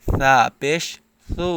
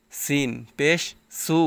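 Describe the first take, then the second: First: সা and সু with a soft th sound; careful th-like সা, then সু. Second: সিন and সু with a clear hissed s; crisp s in সিন and সু; plain s. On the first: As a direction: say সা পেশ সু with a lisped th, not a hiss. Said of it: "বলতে হবে". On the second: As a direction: say সিন পেশ সু with an ordinary s, no th. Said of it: "এরকমভাবে বলা যাবে না". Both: Shown as a demonstration.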